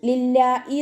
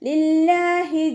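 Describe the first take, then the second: First: A glottal stop replaces the h sound. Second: A clear h sound is pronounced. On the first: The speaker calls it wrong. "ഹംസയുടെ സൗണ്ട് ആയി പോവരുത്" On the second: The speaker calls it right. "ഇവിടെ ഹ സൗണ്ടിനെ ക്ലിയർ ആക്കിയിട്ട് കൊടുക്കണം"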